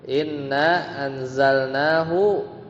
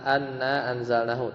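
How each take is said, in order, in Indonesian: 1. Kata pertama diawali dengan vokal 'i'. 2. Kata pertama diawali dengan vokal 'a'. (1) "di awal kalimat ... pasti inna" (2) "nggak mungkin anna"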